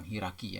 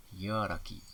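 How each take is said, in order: First: "hierarki" shortened to "hirarki"; "hierarki" with one opening vowel; nonstandard pronunciation. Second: "hierarki" with both opening vowels; careful hi-a-ra-ki for "hierarki"; standard pronunciation. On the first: Teacher shows wrong form, shortened "hierarki". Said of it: "tidak baku". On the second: Teacher models standard word, full "hierarki". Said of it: "hierarki baku". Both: Shown as a demonstration.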